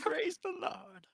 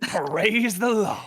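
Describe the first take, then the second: First: Slow, much softer echo of praise the Lord; hushed echo. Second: Mock preacher. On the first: Acted. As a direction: echo it under your breath. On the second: Cletus preacher exclamation.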